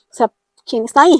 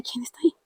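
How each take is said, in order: First: Louder, rising, demanding the answer now; louder urgent repeat. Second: A soft, startled inward ask; hushed question. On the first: Alone at home she asks again who is there, louder and urgent. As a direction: press the question out into the room. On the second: Alone at home she asks the presence beside her, hushed. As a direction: whisper it to yourself, not sure anyone is there. Alone, eyes shut, senses someone. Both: Retold or imitated.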